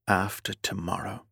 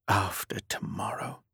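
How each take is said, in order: First: Said in the usual way. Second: After tomorrow whispered, voiceless. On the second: A narrator's reading. Repeats the words in a whisper.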